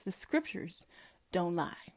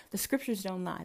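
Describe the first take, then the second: First: Much softer, with a pause before don't lie; dramatic pause. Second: Said in the usual way. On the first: Shown as a demonstration. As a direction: break it in two for effect. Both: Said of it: "That's what the title says".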